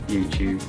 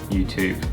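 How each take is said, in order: No difference in how they are said.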